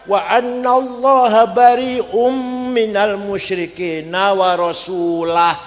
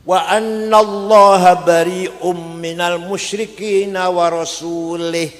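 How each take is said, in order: First: The final word ends with an 'a' vowel. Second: The final word ends with an 'i' vowel. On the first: God and His Messenger both disown the polytheists. The speaker calls it right. "Yang benar bacanya" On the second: God disowns the polytheists and also disowns His Messenger. The speaker calls it wrong. "Ono wong maca Quran salah"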